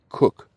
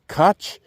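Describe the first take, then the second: First: The name sounds like 'cook'. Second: The name sounds like 'coke'. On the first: This is how a person with that surname says it. "they pronounced it Cook" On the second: This is how the speaker has always said it. "which I've always pronounced Koch"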